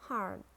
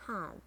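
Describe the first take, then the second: First: "hard" with a sounded American R; American "hard", curl the R before d; American accent. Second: "hard" with a British silent R; British "hard", said hahd; British accent. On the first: Teacher models hard for learners, American accent. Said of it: "R in American English". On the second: Teacher models hard for learners, British accent. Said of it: "in British English". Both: Shown as a demonstration.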